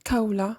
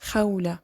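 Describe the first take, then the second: First: The name begins with a hard k sound. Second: The name begins with a raspy kh sound. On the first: The speaker calls it wrong. "It's not Kaula" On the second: The speaker calls it right. "it's Khawla"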